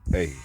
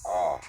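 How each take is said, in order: First: The vowel sounds like 'ay' in 'day'. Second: The vowel sounds like 'ah' in 'father'. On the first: This way closes your free will. The speaker calls it wrong. "they taught us to say it as A" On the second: This way opens your free will. The speaker calls it right. "is pronounced as Ah"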